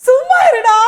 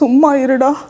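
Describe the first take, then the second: First: It is said in a happy tone. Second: It is said in a sad, tearful tone. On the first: "சந்தோஷமா" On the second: "அழுதுட்டு. சோகமா"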